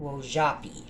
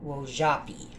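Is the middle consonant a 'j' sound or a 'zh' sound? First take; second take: zh; zh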